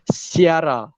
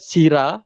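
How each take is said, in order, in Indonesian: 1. Disebut sebagai si-ara, dengan vokal terpisah. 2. Disebut dua suku kata, sira. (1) "tapi Siara" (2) "Bukan Sira"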